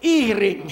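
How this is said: The h is dropped, in a Kapampangan accent.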